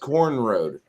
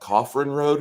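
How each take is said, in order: First: The name is said with one syllable, like 'corn'. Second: The name is said with two syllables, like 'coffrin'. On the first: This is what the locals say. The speaker calls it right. "no, that's Corn Road" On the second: This is a guess from the spelling. The speaker calls it wrong. "Is that Coffrin Road?"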